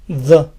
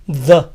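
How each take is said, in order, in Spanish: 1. Termina en una vocal 'uh' corta y débil. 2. Termina en una vocal 'uh' corta y débil.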